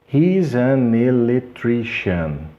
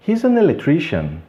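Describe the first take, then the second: First: "He's an electrician" slowly linked, hee-za-ne-lectrician; ligação lenta. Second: "He's an electrician" run together at natural pace; ligação fluente. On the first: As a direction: stretch out the links in "He's an electrician". ("He's an electrician" lento, sílabas ligadas) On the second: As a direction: glide through "He's an electrician" as one word. ("He's an electrician" ligado, ritmo natural) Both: Shown as a demonstration. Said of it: "como se fosse apenas uma".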